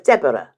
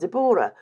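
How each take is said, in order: First: The name is said a non-Welsh way. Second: The name is said the Welsh way. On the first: This is how the other person's name is said. "You are definitely a Deborah. And there's there is a difference" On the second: This is how the speaker's Welsh family says the name. "being Welsh ... we've always pronounced it Deborah"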